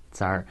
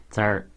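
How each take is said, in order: Both takes have the same delivery.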